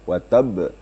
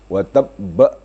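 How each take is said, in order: First: The final b is lightly released with no added vowel. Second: The final b is pressed hard with an added vowel. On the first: The speaker calls it right. "di lepas saja" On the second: The speaker calls it wrong. "itu tambah hurufnya"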